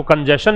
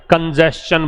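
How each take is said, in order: First: कंजेशन said as kan-jeh-shun, plain sh sound; wrong pronunciation. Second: कंजेशन said as kan-jest-chun, with a t before the ch; correct pronunciation. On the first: Teacher shows students the wrong way to say it, plain sh sound. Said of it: "इसको कंजेशन नहीं बोलते मेरे भाई". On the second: Teacher corrects students' pronunciation, clear st-ch sound. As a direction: say कंजेशन carefully with the st-ch cluster. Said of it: "कंजेशन बोलते हैं". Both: Shown as a demonstration.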